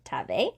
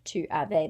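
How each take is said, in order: First: The pronoun is squished into one sound before avais. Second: The pronoun is said in full as two syllables. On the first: "they say t'avais" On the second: "Instead of tu avais"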